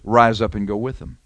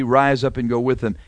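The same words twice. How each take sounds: First: "Rise up and go with them" lifted out alone, a little lower; selective hearing. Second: Said in the usual way. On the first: Shown as a demonstration. Preacher shows what Balaam chose to hear, eager permission. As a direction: say only "Rise up and go with them" as if that's all he heard. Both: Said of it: "You know what Balaam hears?".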